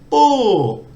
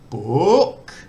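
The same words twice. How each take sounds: First: The pitch starts high and then goes down. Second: The pitch starts low and then goes up. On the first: "falling, it goes the other way. You put energy into the start of the word and then it goes down" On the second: "Rising, it starts off low, then goes up"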